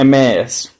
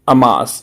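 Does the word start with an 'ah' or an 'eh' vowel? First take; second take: eh; ah. First: The word begins with an 'eh' vowel. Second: The word begins with an 'ah' vowel. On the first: The speaker calls it right. "इसको बोलता है एम एस" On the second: The speaker calls it wrong. "अमास ये नहीं होना चाहिए"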